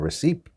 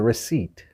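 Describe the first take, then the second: First: The P sound is pronounced in the word. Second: The P sound is silent in the word. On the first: The speaker calls it wrong. "the word that we're mispronouncing, or I'm mispronouncing here, is receipt" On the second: The speaker calls it right. "that P is silent"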